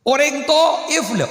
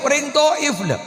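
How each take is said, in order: First: Said in the usual way. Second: Shout. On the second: Shown as a demonstration. Preacher repeats the name, shouting.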